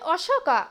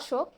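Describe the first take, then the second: First: The name ends with a clear 'ah' vowel. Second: The name ends without a clear 'ah' vowel. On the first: This is the English pronunciation. "বলছে অশোকা" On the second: This is the Bengali pronunciation. "বাংলায় আমরা বলবো অশোক"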